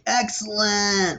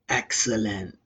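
First: It is said in an upbeat, enthusiastic tone. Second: It is said in a slow, sinister, evil tone. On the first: The speaker is thrilled and having fun. "But like Wayne's World, they're like, excellent" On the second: The speaker is plotting something wicked. "like Mr. Burns, he says, excellent, or like very evil"

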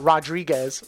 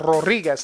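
First: The name is pronounced with English sounds. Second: The name is pronounced with Spanish sounds. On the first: The speaker calls it wrong. "not Rodriguez or whatnot" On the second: The speaker calls it right. "You like how I do like the Spanish inflection there?"

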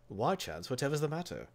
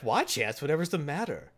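First: It is said in a British accent. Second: It is said in an American accent.

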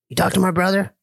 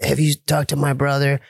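First: The voice is smooth, without gravel. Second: The voice is rough and gravelly.

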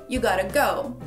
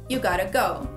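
No difference in how they are said.

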